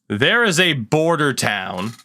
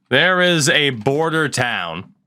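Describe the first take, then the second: The two takes are said the same way.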